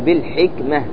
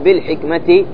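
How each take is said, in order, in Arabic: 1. تنتهي الكلمة بهاء ساكنة. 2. تنتهي الكلمة بصوت التاء مع حركة. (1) "تريد تقف عليها تقول بالحكمة" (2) "عندما تقول بالحكمة"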